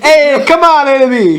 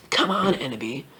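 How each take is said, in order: First: High, loud hammed-up call. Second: Low, soft put-on voice; low coaxing voice. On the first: Professor calling Ebony to come along, loud and high. Line redone loudly after laughter. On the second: Professor urging Ebony along, low and quiet. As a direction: keep it down low and hushed. First take of character's quoted line.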